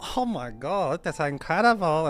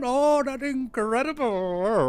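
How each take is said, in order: First: It is said in an imitated Asian accent. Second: It is said in an imitated Indian accent.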